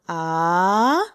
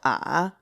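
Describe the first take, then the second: First: The pitch rises from middle to high. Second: The pitch starts very low, then rises slightly. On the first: "the second tone, it's actually rising" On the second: "speak at the lowest point you possibly can, and then raise your pitch up a little bit"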